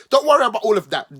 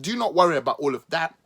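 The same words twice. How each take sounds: First: Louder, rushed brush-off; hammed-up don't worry; loud, fast mock dismissal. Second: "not" leaned on, spaced out and deliberate; "Do not worry" with a firm push on "not"; stress on not. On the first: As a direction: wave it away loudly and quickly. Sarcastic reassurance. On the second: Acted. Sarcastic reassurance repeated.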